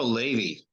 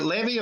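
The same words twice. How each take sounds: First: "Levy" with long first vowel, "LAY-vee"; second pronunciation option. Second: "Levy" with short e, "LEV-ee"; first pronunciation option. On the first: Interviewer offering the alternative, "Levy" as "LAY-vee". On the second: Interviewer offering a name option, "Levy" as "LEV-ee". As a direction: say "Levy" to rhyme with heavy. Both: Shown as a demonstration. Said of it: "Is it Levy or Levy?".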